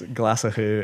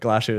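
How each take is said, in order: First: It has the traditional Gaelic pronunciation. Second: It has a simpler anglicized pronunciation. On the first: The speaker calls it right. "is the correct" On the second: The speaker calls it wrong. "is much easier to market"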